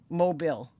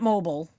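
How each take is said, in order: First: It sounds like the Alabama city name. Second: It sounds like the word for a mobile phone. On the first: The speaker calls it right. "That's how I've heard it pronounced" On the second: The speaker calls it wrong. "Not mobile. ... Mobile is like a phone"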